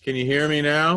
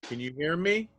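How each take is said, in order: First: Clearer and louder into the mic. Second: Faint and far from the mic; barely coming through; quiet. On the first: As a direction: speak up so they hear you. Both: Real, not acted. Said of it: "Better, yes, louder".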